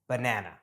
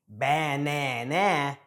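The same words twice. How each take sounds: First: The unstressed vowels are reduced to schwa. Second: The unstressed vowels are fully pronounced. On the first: "just saying" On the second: "a little more difficult and takes more effort to say"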